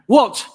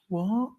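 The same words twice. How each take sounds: First: It is said in an angry way. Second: It is said in a sad way.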